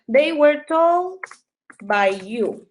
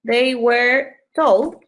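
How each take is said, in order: First: Very slow, each word spaced; slow dictation. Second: Very slow, word by word; slow dictation. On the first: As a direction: drag it out for students to copy. (dictado lento palabra por palabra) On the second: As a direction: spell it out slowly for the class. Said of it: "¿Sí? Em". (dictado muy lento) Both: Shown as a demonstration.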